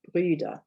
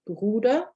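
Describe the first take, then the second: First: Brüder with rounded lips and a front ü; umlaut ü. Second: Bruder with a clear rounded u, said slowly; u as in boot, no umlaut; plain Bruder. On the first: Teacher contrasting Brüder with Bruder, front ü sound. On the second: Teacher contrasting Bruder with Brüder, clear u sound. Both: Shown as a demonstration. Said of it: "see if you can hear the difference".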